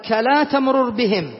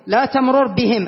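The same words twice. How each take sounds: First: Slow, careful quote of "كلا تمرر بهم"; slow verse quote. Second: Said in the usual way. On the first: Shown as a demonstration. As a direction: recite the verse words slowly. (تلاوة بطيئة لـ"كلا تمرر بهم") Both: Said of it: "قال".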